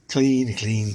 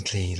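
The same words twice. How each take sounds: First: Said in the usual way. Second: Low satisfied murmur. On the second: Shown as a demonstration. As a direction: drop low and soft on clean. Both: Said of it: "repeats clean for effect".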